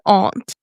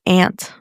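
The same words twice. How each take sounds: First: The vowel is a broad 'ah' sound. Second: The vowel is the flat 'a' of 'ant'. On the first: It sounds posh or fancy. "I just feel so English when I say that" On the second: It is the ordinary, unpretentious way. "My hormiga"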